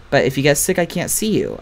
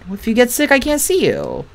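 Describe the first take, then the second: First: Said in the usual way. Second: Higher, lightly voiced shy boy; voicing Jeremy. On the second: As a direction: reread it as the timid boy, pitched up.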